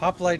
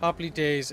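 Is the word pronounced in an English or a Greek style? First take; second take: English; Greek. First: The word is pronounced in an English way. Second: The word is pronounced in a Greek way. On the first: "is the English pronunciation" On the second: "I think, native pronunciation for Greek"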